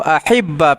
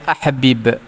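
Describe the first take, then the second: First: The two matching consonants merge into one doubled sound. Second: The two matching consonants are pronounced apart. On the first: "ahibba fi'il amar" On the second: "tidak idgham tapi lepaskan dia"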